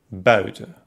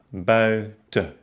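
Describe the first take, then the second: First: Said in the usual way. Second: Bui-ten, split by a pause; buiten by syllables. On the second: Shown as a demonstration. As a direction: break buiten after ui. (buiten nach Silben getrennt) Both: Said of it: "Die Trennung folgt erst".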